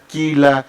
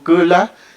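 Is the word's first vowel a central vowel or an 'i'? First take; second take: i; central vowel. First: The first vowel is a plain 'i' sound. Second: The first vowel is the central sixth vowel. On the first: Spanish has influenced this pronunciation. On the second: This is the native pronunciation.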